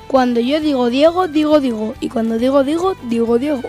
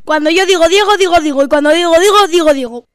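First: It is said at a normal speed. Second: It is said at a very fast speed.

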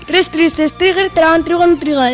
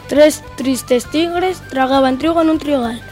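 First: It is said at a fast speed. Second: It is said at a normal speed. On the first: "Y vamos con la velocidad rápida" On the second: "Vamos con la velocidad normal"

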